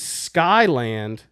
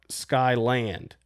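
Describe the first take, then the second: First: The stress is on the first syllable. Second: The stress is on the second syllable. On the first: This is how locals say the name. The speaker calls it right. "your emphasis on the sky, which is where it's supposed to be" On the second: This is how outsiders say the name. The speaker calls it wrong. "People not from here will call it Skyland"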